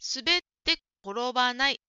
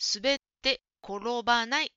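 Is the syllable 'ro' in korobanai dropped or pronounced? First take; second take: pronounced; pronounced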